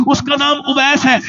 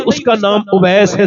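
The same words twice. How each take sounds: First: Said again higher. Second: Said in the usual way. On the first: Shown as a demonstration. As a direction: repeat the name higher and stronger. ("اس کا نام اویس ہے" اونچی آواز میں دوبارہ) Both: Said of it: "ذرا زور سے تو بولو".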